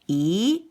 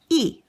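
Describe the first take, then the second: First: The syllable is said with the second tone. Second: The syllable is said with the fourth tone. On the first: "accent number two" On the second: "accent number four"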